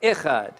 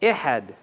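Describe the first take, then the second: First: "Echad" with the guttural kh sound; plain Hebrew "Echad"; modern Hebrew Echad. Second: Restore the lost letter in "Ihad"; original pronunciation. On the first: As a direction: say "Echad" as Hebrew speakers do today. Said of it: "That's how they say it today". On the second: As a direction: lower "Ihad" with breathy h. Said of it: "a letter that they mispronounce". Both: Shown as a demonstration.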